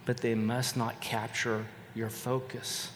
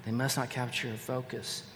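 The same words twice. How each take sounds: First: Slow, with the weight on "they"; stress on they. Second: Softer repeat, hitting "not"; stress on not. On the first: Pastor urging the congregation, slow stress on "they". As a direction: lean on "they" and draw it out. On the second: Pastor repeating the warning, soft stress on "not". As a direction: press the word "not" quietly. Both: Shown as a demonstration.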